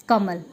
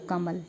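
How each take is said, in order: First: कमल split into क, म, ल, each sound drawn out. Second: Said in the usual way. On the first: Shown as a demonstration. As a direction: say कमल slowly, one letter-sound at a time. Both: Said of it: "और छोटे खंड हम नहीं कर सकते".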